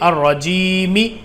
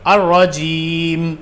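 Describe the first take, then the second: First: The final letter is said with a short vowel. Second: The final letter is said without a vowel.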